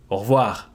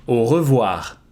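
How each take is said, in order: First: "au revoir" in two syllables, "oh-rvwar"; everyday contracted "au revoir"; devocalized E. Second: "au revoir" with all three syllables, "oh-ruh-vwar"; careful full "au revoir". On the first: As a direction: drop the E of "re" in "au revoir". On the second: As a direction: keep the E of "re" in "au revoir". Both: Shown as a demonstration. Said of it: "you can devocalize the E".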